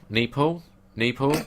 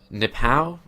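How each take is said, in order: First: Nepal as "NEE-pal", rising in question; unsure pronunciation. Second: Nepal as "nih-POW", questioning; unsure pronunciation. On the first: Host guessing at the place name, Nepal asked as "NEE-pal". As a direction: try Nepal twice with a long "nee", higher and questioning. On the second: Host unsure of the place name, Nepal tried as "nih-POW". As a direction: try Nepal with a short first vowel, ending like "pow". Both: Real, not acted. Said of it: "What is it?".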